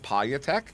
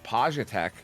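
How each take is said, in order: First: The middle consonant sounds like a Y. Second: The middle consonant sounds like a J. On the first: "pronounced the J as like a Y" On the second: "I ended up going with Pajatech"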